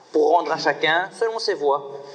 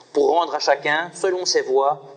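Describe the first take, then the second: Both takes have the same delivery.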